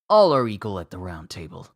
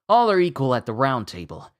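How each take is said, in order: First: The character voice is pitched lower. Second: The character voice is pitched higher. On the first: The speaker calls it wrong. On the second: The speaker calls it right.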